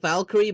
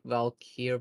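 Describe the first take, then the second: First: The name ends with an extra 'ee' vowel. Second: The name ends on the 'r' sound. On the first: "I think Valkyrie" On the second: "there's nothing after the R, so it has to be like Valkyr"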